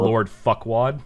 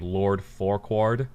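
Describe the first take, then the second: First: The name is said quickly, running together. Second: The name is said at a normal, careful pace.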